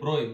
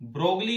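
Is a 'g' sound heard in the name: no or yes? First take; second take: no; yes. First: The name is said without a g, like 'broy'. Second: The name is said with a g, like 'brog-lee'. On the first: The speaker calls it right. "ब्रोय होता है" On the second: The speaker calls it wrong. "ब्रोगली नहीं बोलना है"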